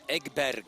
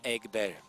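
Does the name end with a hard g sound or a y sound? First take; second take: hard g; y sound. First: The name ends with a hard g sound. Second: The name ends with a y sound. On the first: The speaker calls it wrong. "Some would say" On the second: The speaker calls it right. "you pronounce like Eri"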